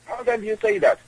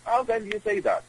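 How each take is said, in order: First: Outraged, rising repeat of the question; indignant disbelief. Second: Said in the usual way. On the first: Retold or imitated. Repeated question, much higher.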